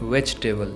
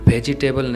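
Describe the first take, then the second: First: Two of the middle vowels are dropped. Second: Every vowel in the middle is fully pronounced. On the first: The speaker calls it right. "ई और ए letter silent रहेगा" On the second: The speaker calls it wrong. "मैंने तो गलत कहा। वेजिटेबल नहीं"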